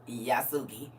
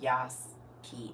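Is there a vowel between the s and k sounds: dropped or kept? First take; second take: kept; dropped. First: The name is said in three syllables. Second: The name is said in two syllables. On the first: The speaker calls it wrong. "Not no Yasuki" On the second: The speaker calls it right. "It's pronounced Yaski"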